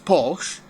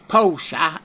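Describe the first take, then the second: First: The name is said with an English pronunciation. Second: The name is said with a non-English pronunciation. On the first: "that's how you pronounce it in England" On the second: "it's Porsche anywhere else"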